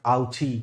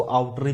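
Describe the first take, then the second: First: "आउची", ch before the final long ee; preferred pronunciation. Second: "आउटरी", tr before the final long ee; alternative pronunciation. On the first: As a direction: say "आउची" with a ch sound. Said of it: "भी पढ़ते हैं but आउची". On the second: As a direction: say "आउटरी" with a T and R sound. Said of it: "कुछ लोग इसको आउटरी भी पढ़ते हैं". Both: Shown as a demonstration.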